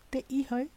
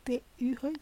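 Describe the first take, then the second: No difference in how they are said.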